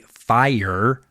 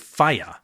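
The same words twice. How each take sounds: First: The R sound at the end is pronounced. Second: The R sound at the end is dropped. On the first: The speaker calls it wrong. "we typically don't say fire" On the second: The speaker calls it right. "We take the R out. We say fire"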